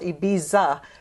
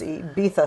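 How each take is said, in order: First: The middle consonant is a z sound. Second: The middle consonant is a th sound. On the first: "It's called Ibiza" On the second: "They pronounce it with, like a T H"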